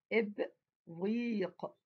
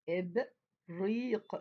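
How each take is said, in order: First: إبريق read very slowly; teacher sounding out إبريق. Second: إبريق said again very slowly; teacher repeating إبريق slowly. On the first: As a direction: stretch إبريق syllable by syllable. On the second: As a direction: draw out إبريق once more. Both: Shown as a demonstration. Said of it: "إب يعني ألف وباء".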